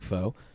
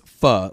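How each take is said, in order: First: The vowel is long, like 'foe'. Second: The vowel is short, like 'fuh'. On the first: "Some regions pronounce it more like foe" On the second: "The most common way to pronounce foe in Vietnam is pho, like duh"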